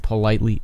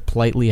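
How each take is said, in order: First: The first vowel is heard, like 'po-litely'. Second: The first vowel is dropped, like 'plitely'. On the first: The speaker calls it right. "It's I need to politely" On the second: The speaker calls it wrong. "Not I need to politely ask"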